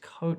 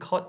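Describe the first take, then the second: First: The vowel is long. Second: The vowel is short. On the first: The speaker calls it right. "coat sounds good" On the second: The speaker calls it wrong. "Cot sounds wrong"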